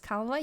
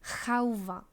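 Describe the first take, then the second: First: The word begins with a k sound. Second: The word begins with an h sound. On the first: The speaker calls it wrong. "You don't say that's calva" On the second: The speaker calls it right. "You say that's halva"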